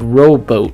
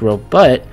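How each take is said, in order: First: The second syllable has a long O vowel. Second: The second syllable has a short U vowel. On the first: "pronounced the long O" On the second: "with a short U"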